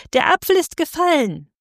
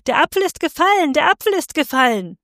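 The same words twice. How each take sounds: First: Hoher, jubelnder Ruf der Menge. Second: Hoher, schneller Schrei einer Frau aus der Menge; schreien, viel höher und hastig; Frauenschrei. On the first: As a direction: als hundert Stimmen jubeln, viel höher. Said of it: "hundertstimmig jubelte das Volk". (das Volk jubelt hoch und laut) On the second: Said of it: "schrie eine Weiberstimme aus dem Volk". (eine Frau aus dem Volk schreit schrill und schnell) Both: A narrator's reading.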